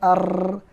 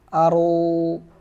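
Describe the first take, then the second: First: The final r is closed and trilled. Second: The final r is open and single. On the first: The speaker calls it wrong. "ro sukun bukan ar" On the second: The speaker calls it right. "yang benar adalah aru"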